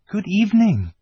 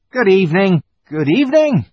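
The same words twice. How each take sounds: First: High-voiced little girl's greeting; Lucy's greeting. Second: High, loud, flustered fawn; fawn's greeting. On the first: Lucy greets the fawn, high girl's voice. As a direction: greet politely in a higher girl's voice. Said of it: "said Lucy". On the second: Fawn answers Lucy's greeting, high flustered voice. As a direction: greet loudly in a high creature voice. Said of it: "said the fawn". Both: A narrator's reading.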